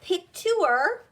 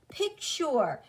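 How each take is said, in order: First: The ending is said with a 'yer' sound. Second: The ending is said with a 'cher' sound. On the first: The speaker calls it wrong. "It's not you're in pure" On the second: The speaker calls it right. "It's sure in pasture"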